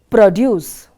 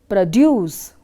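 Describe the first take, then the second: First: The stress is on the first syllable. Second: The stress is on the second syllable.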